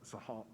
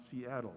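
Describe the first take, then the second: First: The name is said in its native, non-English form. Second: The name is said in its anglicized English form. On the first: The speaker calls it right. "but Sahal" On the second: The speaker calls it wrong. "not Seattle"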